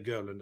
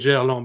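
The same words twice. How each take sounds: First: The name is said the American way. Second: The name is said the French way.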